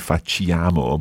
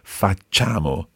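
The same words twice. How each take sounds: First: The i is sounded as a separate vowel. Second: The i is silent and not sounded. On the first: The speaker calls it wrong. "A lot of people say facciamo, but sì, it's not that" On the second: The speaker calls it right. "So you don't actually pronounce it"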